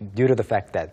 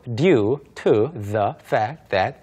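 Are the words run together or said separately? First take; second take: run together; separately. First: The words run together like one word. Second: Each word is said separately with small breaks. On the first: The speaker calls it right. "그냥 due to the fact that" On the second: The speaker calls it wrong. "아무도 due to the fact that 이렇게 끊어서 말하지 않고요"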